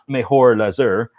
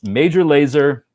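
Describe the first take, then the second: First: The name is said with a Spanish-style accent. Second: The name is said with a plain English accent. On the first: The speaker calls it wrong. "it's not Mejor Laser, like some sort of idiot" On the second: The speaker calls it right. "It's Major Laser"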